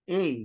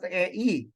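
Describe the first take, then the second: First: The vowels merge into one gliding sound. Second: The vowels are said as two separate sounds. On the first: The speaker calls it right. "So A as in eight" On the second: The speaker calls it wrong. "So you do not pronounce it as A E"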